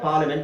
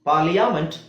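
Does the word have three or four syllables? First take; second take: three; four. First: The 'a' vowel after 'li' is dropped. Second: An extra 'a' vowel is sounded after 'li'. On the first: The current way of saying the word. "ಈಗ ಅದನ್ನ ಪಾರ್ಲಿಮೆಂಟ್ ಅಂತ short ಆಗಿರುತ್ತೆ" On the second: An older way of saying the word. "ಮುಂಚೆ ಹೀಗೆ ಮಾತಾಡ್ತಿದ್ರು"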